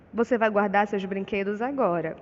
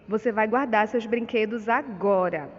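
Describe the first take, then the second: First: Father's firm statement, falling at the end; stated as a fact. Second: Louder command, punch guardar; father ordering his daughter to tidy up, stress on guardar; exclamation, ordering. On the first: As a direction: say it as a plain statement, tune falling on agora. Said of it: "Na letra A nós temos apenas um ponto final". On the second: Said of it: "o pai ordena a filha a guardar os brinquedos". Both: Shown as a demonstration.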